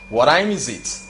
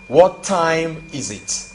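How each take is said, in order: First: The words are run together in contracted form. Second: The words are said in full, uncontracted. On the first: It is the better, more natural way to ask. "la forme contractée" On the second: It is the formal way to ask. "la phrase formelle"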